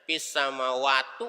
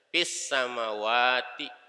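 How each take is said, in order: First: The last word ends with an u vowel. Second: The last word ends with an i vowel. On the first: The speaker calls it wrong. "nggak boleh dibaca fis samawatu" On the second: The speaker calls it right. "Nanti dibacanya kasroh"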